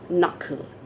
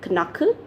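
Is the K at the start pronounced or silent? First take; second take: silent; pronounced. First: The initial K is silent. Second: The initial K sound is pronounced. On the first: The speaker calls it right. "No, it's knuckle" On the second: The speaker calls it wrong. "We pronounce it as knuckle"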